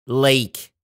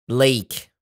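No difference in how they are said.

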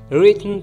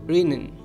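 First: The T is fully released before the N. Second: The T is stopped before a strong N.

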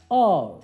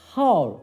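First: The initial h sound is silent. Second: The initial h sound is pronounced. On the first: The speaker calls it right. "hour şeklinde telaffuz edilir" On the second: The speaker calls it wrong. "hour değil"

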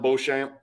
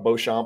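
First: The name is said with English sounds. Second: The name is said with French sounds.

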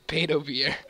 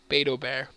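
First: The last word sounds like 'beer'. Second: The last word sounds like 'bare'. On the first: The speaker calls it wrong. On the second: The speaker calls it right.

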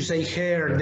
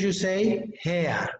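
First: It is said with an American accent. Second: It is said with a British accent. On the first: "In American English, you say hair" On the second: "In British English, you say hair"

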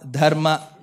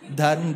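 First: The word ends with a full final vowel. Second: The word ends on the consonant, without a vowel. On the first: "And for me, it is Yama, Dharma" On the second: "If you know colonial English"

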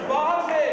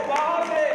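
Both takes have the same delivery.

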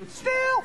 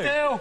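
First: It is said in a high-pitched voice. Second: It is said in a low-pitched voice. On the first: "Saying still in a high voice" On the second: "Saying still in a low voice"

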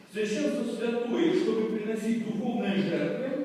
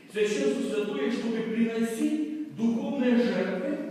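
No difference in how they are said.

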